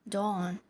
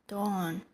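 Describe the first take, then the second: Both takes have the same delivery.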